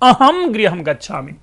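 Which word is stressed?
अहम. The word अहम carries the stress. I, not the others sitting here, am going home. "हमने सुर दे दिया एक"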